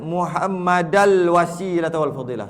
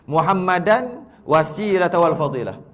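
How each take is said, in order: First: Muhammad ends in -al before wasilah. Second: Muhammad ends in -an before wasilah. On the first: "Ada baca Muhammadal wasilah wal fadilah. Semua salah" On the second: "Semua salah"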